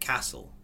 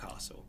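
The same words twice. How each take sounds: First: The word is said the local northern way. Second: The word is said a non-local way. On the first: The speaker calls it right. "If you ever come up here, you pronounce it Castle" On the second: The speaker calls it wrong. "not Castle"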